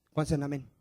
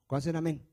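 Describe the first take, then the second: No difference in how they are said.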